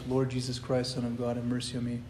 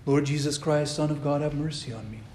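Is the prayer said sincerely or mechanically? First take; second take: mechanically; sincerely. First: It is rattled off mechanically, like counting. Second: It is said sincerely, with meaning.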